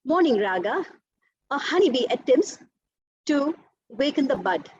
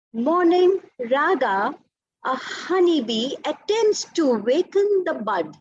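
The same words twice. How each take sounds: First: Quicker, unsustained phrases with breaths between; spent-breath recitation. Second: Very slow, sustained recital carried through to "bud"; one full breath. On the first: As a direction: break after "raga" and after "attempts", taking a breath each time. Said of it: "And a spent breath". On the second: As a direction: stretch "Morning raga" and run "attempts to waken the bud" unbroken at full volume. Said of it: "how I've continued the, my breath without letting go". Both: Shown as a demonstration.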